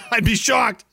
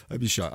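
First: Higher, laughing exclamation; amused disbelief. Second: Much lower, softer repeat; doubtful aside. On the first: Laughing disbelief, then repeated low. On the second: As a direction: drop it to a quiet, low aside. Same words, muttered as afterthought. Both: Real, not acted.

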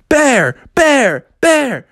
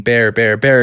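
First: High, rhythmic fan chant; crowd chanting. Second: Said in the usual way. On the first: Acted. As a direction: chant for your champion. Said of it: "people started chanting out". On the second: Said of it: "he could hear people chanting".

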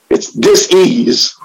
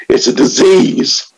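First: "dis-ease" split slowly into dis and ease, lower; split word. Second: Said in the usual way. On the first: Shown as a demonstration. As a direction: say "dis-ease" slowly as two words, dis then ease.

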